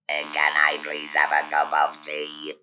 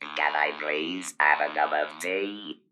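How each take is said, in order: First: The pitch stays flat throughout. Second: The pitch rises at the end.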